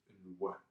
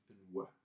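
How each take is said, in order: The two takes are said the same way.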